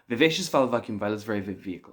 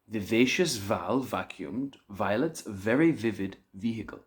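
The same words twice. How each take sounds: First: It is said as fast as possible. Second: It is said at a moderate pace.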